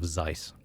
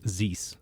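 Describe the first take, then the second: First: The vowel sounds like 'eye' in 'Zeiss'. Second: The vowel sounds like 'oo' in 'Zeus'. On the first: The speaker calls it right. "instead of Zeiss" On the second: The speaker calls it wrong. "they mispronounce my name as Zeus"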